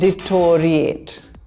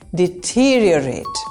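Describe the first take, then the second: First: The word begins with a 'deto' sound. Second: The word begins with a 'det' sound. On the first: The speaker calls it wrong. "Deto is wrong" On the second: The speaker calls it right. "Replace deto with det"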